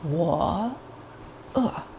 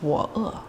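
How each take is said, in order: First: Each syllable is said separately and deliberately. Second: The syllables run together quickly and smoothly. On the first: "we don't need to be so robotic" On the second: "We'll just do a quick flow like music"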